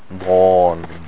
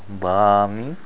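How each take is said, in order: First: The long vowel sounds heavy and thick. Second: The long vowel sounds light and thin. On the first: The speaker calls it right. "The mud has to be thick all the way through" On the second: The speaker calls it wrong. "not bani"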